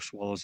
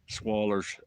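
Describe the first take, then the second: First: The word ends with a clear 'oh' sound. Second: The word ends with an 'er' sound.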